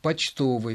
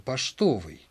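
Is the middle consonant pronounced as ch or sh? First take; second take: ch; sh. First: The middle consonant sounds like ch. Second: The middle consonant sounds like sh. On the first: This is the Petersburg pronunciation, following the spelling. "написана-то буква «ч», значит, и читать нужно" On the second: This is the Moscow pronunciation. "на Москве говорили ... и даже «поштовый»"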